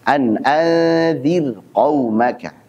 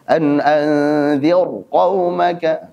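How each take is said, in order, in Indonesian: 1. Bunyi r di anzir itu tipis dan ringan. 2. Bunyi r di anzir itu tebal dan berat. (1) "maka dibaca tetap tipis" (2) "Jangan baca tebal. ... Salah"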